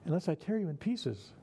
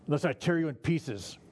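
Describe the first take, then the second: First: Lighter take. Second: Threatening. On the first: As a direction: say it lightly, as if harmless. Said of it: "just as threatening". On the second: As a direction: lean on "tear" like a real threat. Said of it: "Sounds threatening". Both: Shown as a demonstration.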